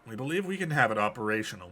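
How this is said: It is read in a put-on villain character voice. A person is giving an audio log. "let's actually switch to Lysander's voice"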